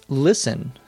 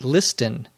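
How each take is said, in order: First: The T sound is silent. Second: The T sound is pronounced. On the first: The speaker calls it right. "We pronounce this listen" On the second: The speaker calls it wrong. "Why don't we pronounce the T in listen? Why isn't it not listen?"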